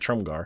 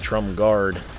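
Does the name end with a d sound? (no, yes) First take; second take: no; yes. First: The name ends without a d sound. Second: The name ends with a d sound. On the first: The speaker calls it right. "but Trumgar" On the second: The speaker calls it wrong. "I keep saying guard"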